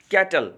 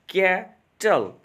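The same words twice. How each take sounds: First: Said in the usual way. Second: कैटल broken slowly in two, कै - टल; split into syllables. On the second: Shown as a demonstration. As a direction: pause between the two beats of कैटल. (कैटल को दो हिस्सों में धीरे-धीरे तोड़कर) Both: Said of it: "ये दो साउंड्स में मेरा तकसीम हो रहा है".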